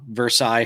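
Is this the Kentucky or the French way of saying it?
French. It is said the French way. This names the place in France. "Versailles, France"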